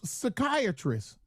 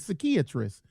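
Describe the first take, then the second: First: The word is said in a plain American accent. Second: The word is said in an imitated Spanish accent.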